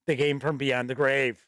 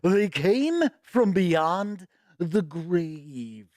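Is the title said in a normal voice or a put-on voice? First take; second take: normal; put-on. First: It is said in a normal speaking voice. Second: It is said in a put-on dramatic voice. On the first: "I'm not going to do the voice again" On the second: "I just love saying it like that"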